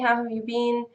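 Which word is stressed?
been. The stress falls on been. The question is asked first.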